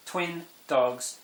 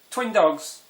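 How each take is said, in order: First: Said in the usual way. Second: Excited reveal. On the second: Real, not acted. Punchline reveal of twin dogs.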